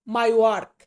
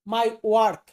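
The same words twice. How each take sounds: The two takes are said the same way.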